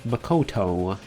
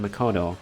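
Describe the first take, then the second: First: The T sound is crisp and clearly emphasized. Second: The T sound is light and barely emphasized. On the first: "but then Byakuya is like" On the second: "not much emphasis on the T there"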